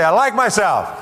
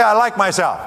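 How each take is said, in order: First: Slow, high and loud; emphatic rallying affirmation; said like you mean it. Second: Said out high and loud; modelling the line for the audience to repeat; loud affirmation. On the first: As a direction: lean hard into every word. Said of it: "Say it like you mean it". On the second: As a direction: call it out so the room joins in. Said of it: "So say it. Say". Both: Shown as a demonstration.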